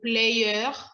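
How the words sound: The R is said like a French R. The speaker calls it wrong. "on ne va pas dire"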